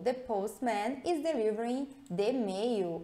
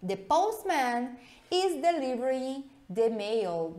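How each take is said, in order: First: Said in the usual way. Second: Slow read. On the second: Shown as a demonstration. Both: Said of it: "Dá uma olhada nessa frase aqui".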